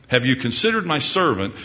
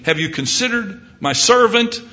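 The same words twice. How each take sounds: First: Said in the usual way. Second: High, raised question with servant lifted; God proudly pointing out his servant; God calling out. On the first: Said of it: "You fill in your name". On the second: Acted. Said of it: "God might be saying".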